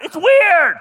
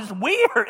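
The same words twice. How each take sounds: First: Higher and much louder, almost shouting; loud exclaim. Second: Said in the usual way. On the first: Shown as a demonstration. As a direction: blurt it out a second time, much louder and higher. Repeats phrase, second much louder.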